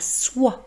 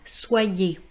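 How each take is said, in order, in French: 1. Le mot finit sur le son wa, le e final est muet. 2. Le e final se prononce comme une voyelle en plus. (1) "Il est donc ici muet" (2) "on ne dit pas soyez"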